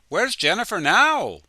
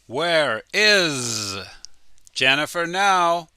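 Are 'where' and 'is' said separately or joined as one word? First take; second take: joined; separately. First: 'Where' and 'is' are joined as one word. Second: 'Where' and 'is' are said as separate words.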